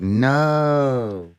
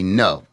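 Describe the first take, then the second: First: The word is stretched out very long. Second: The word is said short and clipped.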